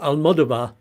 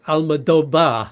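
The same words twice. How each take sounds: First: The consonant after the 'o' is a v sound. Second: The consonant after the 'o' is a b sound. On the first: The speaker calls it wrong. "I didn't quite get that right" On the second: The speaker calls it right. "because V's are pronounced like B's"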